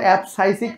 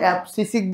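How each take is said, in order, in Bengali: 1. মাঝের সিলেবলে diphthong 'ai' আছে। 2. মাঝের সিলেবলে সাধারণ 'i' স্বরধ্বনি আছে। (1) "আসলে এটা অ্যাবসাইসিক না" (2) "অ্যাবসিসিক বললে সবচেয়ে বেস্ট হইতো"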